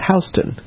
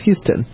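First: It is said the way New Yorkers say it. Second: It is said the way Texans say it. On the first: It names the street in New York. "In New York, the same spelling is pronounced Houston" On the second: It names the city in Texas. "I went to school in Houston, which is pronounced Houston"

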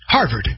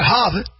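First: The final D sound is clearly pronounced. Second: The final D sound is dropped. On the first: The speaker calls it right. "pronounce the D" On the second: The speaker calls it wrong. "not Harvard"

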